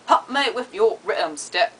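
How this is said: It is said in a New Zealand accent. "I wrote it down phonetically in New Zealandish"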